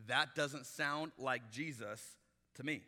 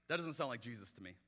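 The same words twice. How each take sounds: First: "that doesn't sound like Jesus" said slowly, every word weighted; drawn out and deliberate; slow emphatic repeat. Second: Said in the usual way. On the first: Shown as a demonstration. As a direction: spell it out slowly, each word landing. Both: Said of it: "I'm just telling you".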